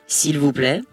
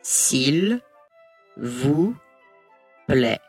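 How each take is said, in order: First: The phrase is said at normal speed. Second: The phrase is said slowly, word by word.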